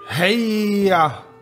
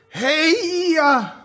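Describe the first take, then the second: First: It is said weakly, without conviction. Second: It is shouted forcefully, with conviction.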